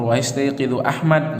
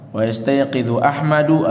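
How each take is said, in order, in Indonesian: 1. Nama itu diakhiri dengan konsonan, tanpa vokal. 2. Nama itu diakhiri dengan vokal "u" di akhir. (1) "boleh kalian baca Ahmad atau Ahmadu" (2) "boleh kalian baca Ahmad atau Ahmadu"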